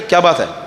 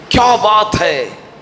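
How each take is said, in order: First: It sounds like a sharp scolding. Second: It sounds admiring and full of praise.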